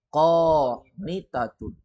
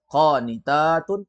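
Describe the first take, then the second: First: The vowel before the ending is short. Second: The vowel before the ending is long. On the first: It refers to one woman. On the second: It refers to many women.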